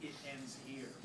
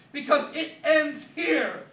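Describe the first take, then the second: First: Softer, offhand imitation; mocking his catchphrase. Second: Much louder and higher, slow and grand; dramatic vow. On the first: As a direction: toss off his catchphrase with a shrug. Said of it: "He was always saying". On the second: Acted. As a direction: proclaim it like a final showdown.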